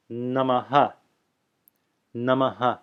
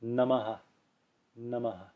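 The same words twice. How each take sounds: First: Namaha with a clearly voiced final ha; "Namaha" demonstrated with a strong echoed vowel at the end; full final echo. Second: Softly said Namaha, the final ha a light breath; quiet demonstration of "Namaha" with a softened ending; softer echo. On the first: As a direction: sound the ha of Namaha as a full syllable. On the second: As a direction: let the last ha of Namaha fade as a soft, short echo. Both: Shown as a demonstration. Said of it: "with a softer echo".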